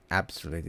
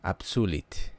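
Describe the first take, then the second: First: "absolute" said the English way, stress on the first syllable; the usual English "absolute", first syllable stressed; wrong way. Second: "absolute" with the stress on su, U said like a double O; "absolute" in the Italian way, stress on su; right way. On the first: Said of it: "So it's not". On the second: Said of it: "the accent is on the su". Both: Shown as a demonstration.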